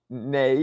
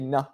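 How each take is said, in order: First: The syllable has an 'ay' vowel. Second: The syllable has an 'ah' vowel. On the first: The speaker calls it wrong. "you don't say nay" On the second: The speaker calls it right. "you say nah"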